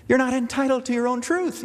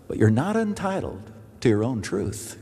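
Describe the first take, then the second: First: "You're not entitled to your own truth" lifted high, ending on a rising "truth"; raised pitch emphasis. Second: Said in the usual way. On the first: Shown as a demonstration. Pastor driving his point home to the congregation, voice pitched high. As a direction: fling it up high and insistent.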